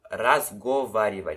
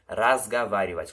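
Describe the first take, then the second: First: The second vowel is a full 'o' sound. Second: The second vowel sounds like an 'a'. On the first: "aqui está escrito" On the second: "a gente pronuncia разговаривать, como se esse O aqui fosse um A"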